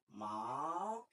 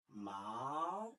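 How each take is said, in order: First: The pitch rises from middle to high. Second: The same.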